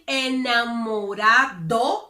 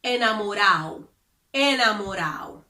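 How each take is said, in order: First: Enamorado with the D clearly pronounced; full D. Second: Enamorado said as "enamorao", D left out; dropped D. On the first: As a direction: say every letter of enamorado. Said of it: "instead of saying enamorado with the D". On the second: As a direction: swallow the D in enamorado. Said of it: "they would say". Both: Shown as a demonstration.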